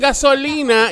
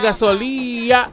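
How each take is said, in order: First: The n sound in the word is pronounced. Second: The n sound in the word is dropped. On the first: "las nenas dicen gasolina" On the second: "él dice gasolía"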